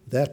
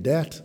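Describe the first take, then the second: First: The word begins with a th sound. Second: The word begins with a hard d sound.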